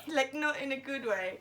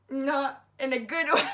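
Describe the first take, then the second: First: Said in the usual way. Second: Laughing. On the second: Real, not acted.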